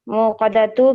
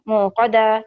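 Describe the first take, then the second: First: The word ends with a 'tu' sound. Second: The word ends with a plain 'a' sound. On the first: "मुक़दतु के बजाय" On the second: "जब हम स्टॉप करेंगे"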